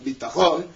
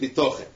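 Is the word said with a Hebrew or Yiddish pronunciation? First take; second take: Hebrew; Yiddish. First: It is said with a Sephardic Hebrew pronunciation. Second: It is said with an Ashkenazi Yiddish pronunciation. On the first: It means physical, material security. "la pronuncia ebraica" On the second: It means trust in God. "la pronuncia yiddish"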